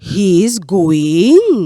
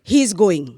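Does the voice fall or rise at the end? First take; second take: rise; fall. First: The voice rises at the end like a question. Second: The voice falls at the end like a statement. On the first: It asks whether he is going. "যেখানে গলার স্বরে কাজ হবে সেখানে গ্রামারকে খাটিয়ে লাভ নেই" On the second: It states that he is going. "সে যাচ্ছে, কি বলবে?"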